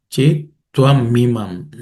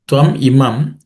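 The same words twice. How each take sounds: First: "chet tvam imam" joined as chet tva-mi-mam; joined sandhi. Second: "Tvam imam" as two separate words; split sandhi. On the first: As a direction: run tvam into imam, sounding "mi". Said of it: "the um and e becomes me". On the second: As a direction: keep a clean break between Tvam and imam. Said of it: "is made up of three words". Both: Shown as a demonstration.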